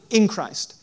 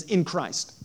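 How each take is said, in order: First: "In Christ" said louder, pressed hard; emphatic repeat. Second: Said in the usual way. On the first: Shown as a demonstration. Pastor drilling the phrase "In Christ" into the congregation, louder. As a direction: hammer "In Christ" home.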